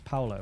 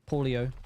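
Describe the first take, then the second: First: No extra 'ee' sound comes before the final 'o'. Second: An extra 'ee' sound comes before the final 'o'. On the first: The speaker calls it right. "There's no I there" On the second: The speaker calls it wrong. "my English pronunciation brain taking over there and just butchering people's names"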